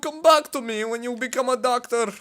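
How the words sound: It is spoken with a Russian accent. The speaker calls it right. "She's Russian, so she's more like"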